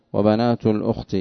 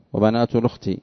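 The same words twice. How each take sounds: First: Said in the usual way. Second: "الأخت" linked as lukhti, no hamza; hamza vowel transferred. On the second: Shown as a demonstration. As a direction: drop the hamza in "الأخت", moving its u onto the lam. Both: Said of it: "لأنه يقرأ بالنقل".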